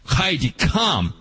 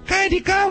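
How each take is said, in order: First: It is said as a firm, forceful command. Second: It is said softly, like a polite request. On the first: The dog must obey right now. The speaker calls it right. "But I want to say" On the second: The dog may choose whether to obey. The speaker calls it wrong. "Not just, ... wouldn't you mind?"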